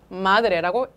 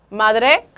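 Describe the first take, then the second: First: The stress is on the first syllable. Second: The stress is on the last syllable. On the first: The speaker calls it right. "마지막에서 두 번째에 악센트가 놓여서" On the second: The speaker calls it wrong. "마드레가 아니라"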